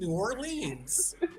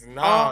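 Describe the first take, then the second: First: The name is said as two separate words. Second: The name is blended into one short word. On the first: Outsiders say it this way. The speaker calls it wrong. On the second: Locals say it this way. The speaker calls it right. "People who know how to say it right say Nolans"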